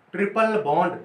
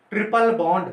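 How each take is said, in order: Both takes have the same delivery.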